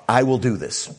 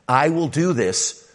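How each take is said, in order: First: "I" hit as the strongest word, with a falling end; God voiced, claiming the promise on "I"; stress on I. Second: Slow, with the weight landing on "do"; stress on do. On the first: Preacher voices God stressing "I" alone. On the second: Shown as a demonstration. Preacher lingers on "do" for the congregation. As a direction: lean into "do" as the promise is restated. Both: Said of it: "What's Abraham's part?".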